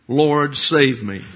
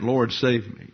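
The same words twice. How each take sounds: First: Slow, louder plea of a sinking man; crying out for help. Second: Said in the usual way. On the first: Retold or imitated. Peter sinking, calling to Jesus, slow loud plea. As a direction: drag out a desperate cry to the Lord. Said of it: "he cried out". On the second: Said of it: "you can impute a lot of things to that".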